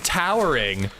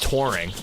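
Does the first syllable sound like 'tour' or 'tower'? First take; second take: tower; tour. First: The first syllable sounds like 'tower'. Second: The first syllable sounds like 'tour'. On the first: The speaker calls it wrong. "trying to get me to mispronounce mis mispronounce things" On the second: The speaker calls it right. "what the fuck are you talking about? It's touring"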